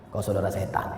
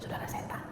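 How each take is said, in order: First: It is said bluntly and harshly. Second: It is said softly and gently.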